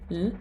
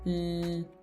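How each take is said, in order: First: The L sound is short. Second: The L sound is held long. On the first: The speaker calls it wrong. "instead of going l" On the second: The speaker calls it right. "you're just holding it"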